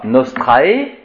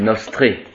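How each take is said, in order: First: The final vowel is a two-part diphthong. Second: The final vowel is a single sound. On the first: The speaker calls it wrong. "ce n'est pas nostrae" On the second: The speaker calls it right. "Les diphtongues se prononcent en un seul son"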